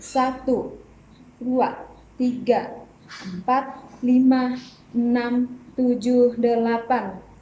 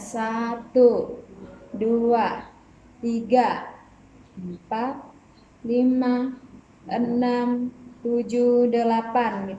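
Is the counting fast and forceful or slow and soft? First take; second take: fast and forceful; slow and soft. First: The counting is fast and forceful. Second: The counting is slow and soft. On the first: It goes with a strong, lively dance movement. "Dia lebih memiliki power" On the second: It goes with a weak, gentle dance movement. "gerakannya lebih lembut"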